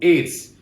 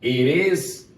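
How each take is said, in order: First: It is said as one contracted syllable. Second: It is said as two separate full words. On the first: "sua forma contraída" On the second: "Both pronunciations are correct"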